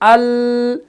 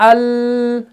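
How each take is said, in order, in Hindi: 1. आखिरी 'l' नरम है और खिंची हुई है। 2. आखिरी 'l' नरम है और खिंची हुई है।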